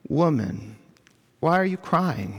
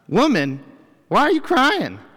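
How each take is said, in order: First: It is said in a gentle, caring tone. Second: It is said in a harsh, belittling tone. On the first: The speaker cares about the listener's grief. The speaker calls it right. "was a term of endearment in Jesus' day" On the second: The speaker looks down on the listener. The speaker calls it wrong. "Not demeaning or belittling. It's not"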